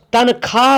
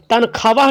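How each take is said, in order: First: तनख्वाह said with a silent wa; तनख्वाह as tankhaah, no w sound; correct reading. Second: तनख्वाह said with the wa sounded out; तनख्वाह as tankhwaah, w pronounced; wrong reading. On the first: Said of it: "तनख्वाह पढ़ेंगे". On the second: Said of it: "तनख्वाह नहीं पढ़ेंगे". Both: Shown as a demonstration.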